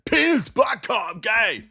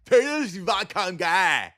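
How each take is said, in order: First: High, slow hammed-up shout; mock bear comedy. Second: Slow, higher dopey parody voice; mock bear comedy. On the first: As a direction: parody a dumb joke crowd loudly. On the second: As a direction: drag it out like a dim fan. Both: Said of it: "that's my impression of bear comedy".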